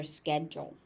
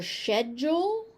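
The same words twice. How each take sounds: First: "schedule" as SKED-jul, American, lower and falling; American pronunciation. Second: "schedule" as British SHED-jul, rising; British pronunciation. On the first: Teacher telling learners the American form, sked-jul. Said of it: "So in American pronunciation". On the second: Teacher giving the second British variant, shed-jul. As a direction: say "schedule" with sh, two syllables, British. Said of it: "the British pronunciation of". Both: Shown as a demonstration.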